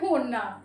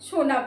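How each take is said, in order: First: The word begins with an h sound. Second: The word begins with an sh sound. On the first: "বলে হোনা" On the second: "শোনা বলতেও পারে না"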